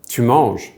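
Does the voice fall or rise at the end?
fall. The voice stays level or falls at the end. It states what someone is doing. "which is an indication"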